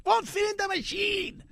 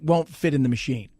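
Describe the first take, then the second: First: High, softer cartoonish echo; silly put-on voice. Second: Said in the usual way. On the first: Host echoing why the cow can't be sold, silly voice. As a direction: squeak it back in a comic voice.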